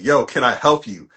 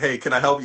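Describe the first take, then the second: First: It is said in a hostile, unwelcoming tone. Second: It is said in a friendly, welcoming tone.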